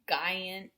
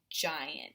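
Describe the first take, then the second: First: It begins with a hard G sound. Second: It begins with a J sound. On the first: The speaker calls it wrong. "instead of it being like giant" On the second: The speaker calls it right. "It's going to make that J sound"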